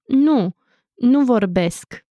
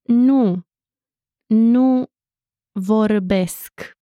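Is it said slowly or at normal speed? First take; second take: normal speed; slowly. First: It is said at normal speed. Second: It is said slowly.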